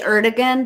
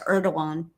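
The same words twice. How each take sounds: First: The name is said the anglicized English way. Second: The name is said the native Turkish way. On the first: This is how English speakers usually say it. The speaker calls it wrong. "We say Erdogan" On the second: This is how the people there say it. The speaker calls it right. "but it's Erdogan. That's how they pronounce it"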